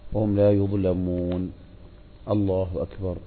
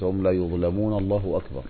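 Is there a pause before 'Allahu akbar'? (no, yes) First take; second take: yes; no. First: There is a breath-long pause before the final phrase. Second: It runs straight into the final phrase without pausing. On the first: The speaker calls it right. "يقف ويسكت بقدر ما يرجع إليه نفسه" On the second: The speaker calls it wrong. "بحيث إنه لا يصل القراءة بالتكبير، ما يقول مثلا"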